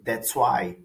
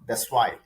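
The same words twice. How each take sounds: First: It is said at a careful, ordinary pace. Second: It is said quickly, the way people really talk.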